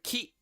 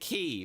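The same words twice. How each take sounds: First: The final vowel sound is cut short. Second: The final vowel sound is drawn out long. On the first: "short down the E sound at the end of key" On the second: "key as in key"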